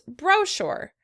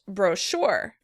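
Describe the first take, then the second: First: The stress is on the first syllable. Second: The stress is on the second syllable.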